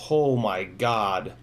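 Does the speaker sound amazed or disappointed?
amazed. It sounds amazed and impressed. The drone flew impressively well. "everybody that has Squirts that I let fly the Cinesplorer is like"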